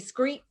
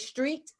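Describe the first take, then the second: First: The word begins with an s-c-r cluster. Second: The word begins with an s-t-r cluster. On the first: The speaker calls it wrong. "they say screet" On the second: The speaker calls it right. "when someone can't say street"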